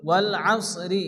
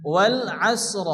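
First: আসরি with its final i sounded after r; full final vowel. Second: আসর stopped on s and r joined, no final i; vowelless stop ending. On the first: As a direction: say আসরি with heavy s and an open ri ending. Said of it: "মুখটা হালকা গোল করে". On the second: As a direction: close আসর on a silent-vowel r. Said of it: "দুটি সাকিনযুক্ত অক্ষর একসঙ্গে সংযুক্ত করে". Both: Shown as a demonstration.

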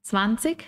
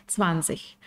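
First: "Zwanzig" ending in k, rising. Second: "zwanzig" ending in a soft ch, lower and softer. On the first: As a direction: say "Zwanzig" with a k at the end. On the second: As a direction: say "zwanzig" with a ch at the end. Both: Shown as a demonstration. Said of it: "las dos son correctas".

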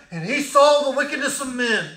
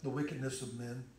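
First: Thundered refrain. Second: Hushed refrain. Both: Acted.

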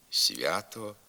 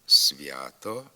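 First: «свято» with с palatalized before вя; softened с. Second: «свято» with с hard before вя, rising end; as written. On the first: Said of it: "а вимовляємо". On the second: Teacher reading the spelling, hard с in «свято». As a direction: say «свято» with an unsoftened с. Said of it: "Пишемо". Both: Shown as a demonstration.

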